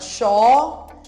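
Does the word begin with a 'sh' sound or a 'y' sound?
sh. The word begins with a 'sh' sound. This is how Argentines say it. "argentino fala xó"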